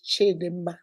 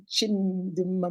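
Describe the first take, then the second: First: Chidemma without the m sound before the d; Chidemma, the speaker's own name. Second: Chimdemma with a clear m after chi; Chimdemma, slow and quiet. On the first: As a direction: say Chidemma, chi-DEM-ma with no m after chi. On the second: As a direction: say Chimdemma slowly, chim-DEM-ma. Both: Shown as a demonstration. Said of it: "Yours is Chimdemma".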